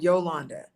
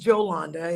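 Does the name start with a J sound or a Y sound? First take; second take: Y sound; J sound. First: The name begins with a Y sound. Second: The name begins with a J sound. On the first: The speaker calls it wrong. "It is not Yolanda" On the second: The speaker calls it right. "My name is Jolanda"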